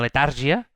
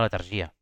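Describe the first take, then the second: First: The stress is on the second syllable. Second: The stress is on the third syllable. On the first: The speaker calls it wrong. "No és una letàrgia, perquè no porta accent" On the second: The speaker calls it right. "sinó que és una letargia... aquesta és plana"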